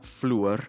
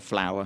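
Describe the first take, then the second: First: It has an oo vowel, older Yorkshire style. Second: It has an ow vowel, the speaker's own.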